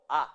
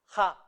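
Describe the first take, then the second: First: A as a bare vowel, with no h before it; H left silent. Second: JA with an audible breathy h at the start; H pronounced. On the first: Teacher showing the mistake to avoid, silent h. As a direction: drop the h and say just A. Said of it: "no a". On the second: Teacher showing the Japanese h is pronounced, aspirated. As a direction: sound the h clearly in JA. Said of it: "en el japonés la H se pronuncia". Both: Shown as a demonstration.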